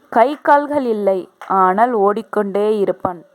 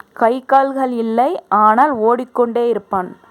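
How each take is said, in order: The two takes are said the same way.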